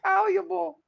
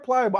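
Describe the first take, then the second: First: The word begins with a 'pal' sound. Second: The word begins with a 'ply' sound. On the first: The speaker calls it wrong. "I said palleable" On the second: The speaker calls it right.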